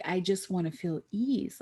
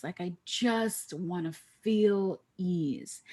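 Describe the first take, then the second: First: Said in the usual way. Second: Same wish, drawn out slowly; slow longing. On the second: Retold or imitated. Tired executive longing for ease, slowly. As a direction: stretch each word of the wish.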